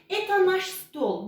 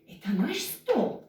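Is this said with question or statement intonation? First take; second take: statement; question. First: It is said with plain statement intonation. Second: It is said with questioning intonation. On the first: It states that this is ours. "bu bizim masamız" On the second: It asks whether this is ours. "Vurguyla bakınız hemen bir soruya dönüştük"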